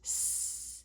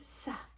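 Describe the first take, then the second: First: The hiss is said alone without a vowel. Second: The hiss is followed by an added vowel. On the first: The speaker calls it right. "It says s" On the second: The speaker calls it wrong. "I shouldn't say sa. It doesn't say sa"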